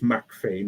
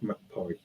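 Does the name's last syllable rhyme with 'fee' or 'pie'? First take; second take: fee; pie. First: The last syllable rhymes with 'fee'. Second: The last syllable rhymes with 'pie'. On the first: The speaker calls it right. "that's why it's McPhee" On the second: The speaker calls it wrong. "not McPie"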